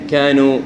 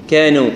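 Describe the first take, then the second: No difference in how they are said.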